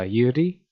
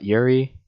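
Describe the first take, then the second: First: The first syllable sounds like 'you', no R. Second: The first syllable sounds like 'yur', with R. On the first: The speaker calls it right. "would it be uh, Yuri" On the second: The speaker calls it wrong. "not Yuri, because you have that Yur"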